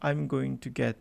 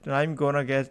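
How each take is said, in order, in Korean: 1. 'going to'의 각 단어는 전부 다 발음합니다. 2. 'going to'는 붙어서 'gonna'로 발음됩니다. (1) "I'm going to가 정확한 말인 건 맞아요" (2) "gonna란 말은 대충 말하는 거예요"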